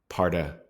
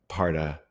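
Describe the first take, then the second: Both takes have the same delivery.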